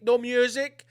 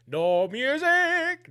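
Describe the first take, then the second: First: Said in the usual way. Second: Higher, very slow, stretched syllables; drawn-out mock announcement. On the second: Host tells listeners there is no intro, drawn-out mock announcement. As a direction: drag out "music" in a raised sing-song.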